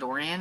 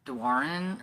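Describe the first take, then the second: First: The name begins with a plain 'dor' sound. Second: The name begins with a 'dwa' sound. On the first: The speaker calls it wrong. "it's not Dorian" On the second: The speaker calls it right. "it's Dwaran or something like that"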